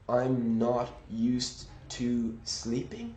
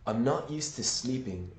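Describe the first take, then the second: First: Used to is said slowly with full sounds. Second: Used to is reduced and run together quickly. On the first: "did I say I'm not used to sleeping? No" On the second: "a more natural tempo"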